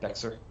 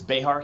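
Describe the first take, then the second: First: The middle consonant is a ks sound. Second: The middle consonant is a soft h sound. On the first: The speaker calls it wrong. "not Bexar" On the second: The speaker calls it right. "it's it's Behar County"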